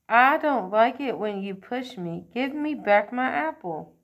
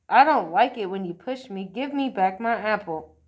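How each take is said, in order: First: Big voice. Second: Put-on firm, louder opening on a child's line. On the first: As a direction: use your big voice to stand up for yourself. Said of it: "says in his big voice". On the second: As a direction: say it firmly, standing your ground. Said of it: "and then he firmly says". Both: A narrator's reading.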